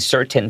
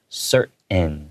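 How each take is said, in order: First: The middle T is clearly released. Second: The middle T is swallowed.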